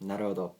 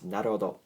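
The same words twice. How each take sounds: Both takes have the same delivery.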